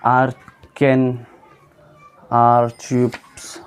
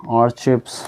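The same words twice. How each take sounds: First: First slow try at आर्चिप्स; slow careful reading. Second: Said in the usual way. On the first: Shown as a demonstration. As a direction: sound out आर्चिप्स slowly, syllable by syllable.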